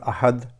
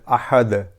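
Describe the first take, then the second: First: The final d stops with no bounce. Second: The final d is released with a bounce. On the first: The speaker calls it wrong. "not ahad" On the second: The speaker calls it right. "we have to do qalqala, bouncy sound"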